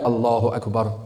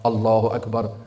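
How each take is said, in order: The two takes are said the same way.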